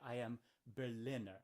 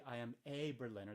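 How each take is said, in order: First: Said in the usual way. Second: "a" said as a full "ay" and stressed. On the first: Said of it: "They say". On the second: Shown as a demonstration. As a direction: point up the word "a" in "a Berliner". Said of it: "They don't say".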